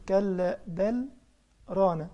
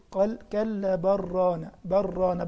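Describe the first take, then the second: First: "كلا بل" slow, a pause before "ران"; pause after بل. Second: "بل ران" joined with no stop; no pause, run together. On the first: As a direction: stop briefly after "بل" then say "ران". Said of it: "في هنا سكتة لطيفة". (وقفة لطيفة بعد "بل" قبل "ران") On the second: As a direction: run "بل ران" straight on without pausing. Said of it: "بضغم على طول وبمشي". ("بل ران" موصولة بلا سكتة) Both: Shown as a demonstration.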